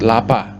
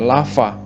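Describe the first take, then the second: First: "lapa" said with a p sound where the v should be; mock the mistake by saying "lapa" with a hard p; wrong pronunciation. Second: "lava" said with a clear v sound, not p; right pronunciation. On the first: Teacher showing students the wrong way to say lava, a hard p in "lapa". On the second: Teacher showing students how to say the word right, a clear v in "lava". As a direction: say "lava" with the lips touching the teeth for v. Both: Shown as a demonstration. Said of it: "Jangan pula disebut lapa".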